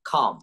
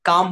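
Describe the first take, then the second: First: The first k sound has a strong puff of air. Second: The first k sound has no puff of air. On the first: The speaker calls it right. "আমরা বলবো খাম" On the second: The speaker calls it wrong. "কাম বলবো না"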